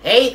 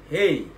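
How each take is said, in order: First: The voice is thin and shrill. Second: The voice is fuller, with more bass.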